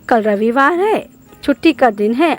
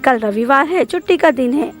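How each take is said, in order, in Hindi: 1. दोनों उपवाक्यों के बीच विराम है। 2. दोनों उपवाक्य बिना साफ़ विराम के एक साथ चलते हैं। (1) "जिसे हम इस ढंग से पढ़ेंगे।" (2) "एक सीधी भाषा में ही यह खत्म हो जाता है"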